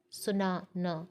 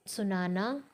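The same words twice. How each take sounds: First: सुना न with a gap before न, stressing सुना; parted demo of सुना न; split for stress. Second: Said in the usual way. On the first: Shown as a demonstration. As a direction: hold सुना, pause, then न. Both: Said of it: "बलाघात के साथ उच्चारित करते हैं".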